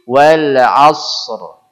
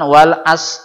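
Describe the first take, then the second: First: The final r sound is heavy and thick. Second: The final r sound is left out. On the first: The speaker calls it right. "Karena tebal, tafkhim" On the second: The speaker calls it wrong.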